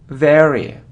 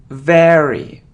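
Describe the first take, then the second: No difference in how they are said.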